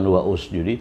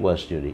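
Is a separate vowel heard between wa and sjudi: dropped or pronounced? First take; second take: pronounced; dropped. First: An extra u vowel is said after wa. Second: Wa runs straight into sjudi, no extra vowel. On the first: The speaker calls it wrong. "Bukan wa usjudi" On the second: The speaker calls it right. "tapi wasjudi"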